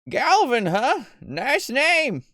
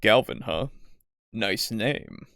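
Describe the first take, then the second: First: It is said in an ordinary voice. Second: It is said in a deep, hollow voice.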